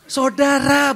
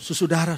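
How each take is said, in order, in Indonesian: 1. Kata ini dimulai dengan bunyi 'sau'. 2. Kata ini dimulai dengan bunyi 'su su' yang diulang. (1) "Saudara, bukan susudara" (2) "yang salah di bait keduanya"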